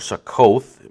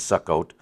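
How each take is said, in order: First: The name is said as its English spelling suggests. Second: The name is said differently from its English spelling. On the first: The speaker calls it wrong. "the way it looks like it's pronounced in our King James" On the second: The speaker calls it right. "That's the proper pronunciation"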